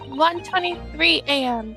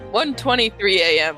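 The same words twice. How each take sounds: First: It is said in the speaker's own voice. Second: It is said in Kazuma's imitated voice.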